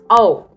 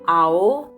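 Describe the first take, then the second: First: The 'a' part is short and blended in. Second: The 'a' part is drawn out and separate. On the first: The speaker calls it right. "A should be short. it's O" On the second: The speaker calls it wrong. "It's not ao"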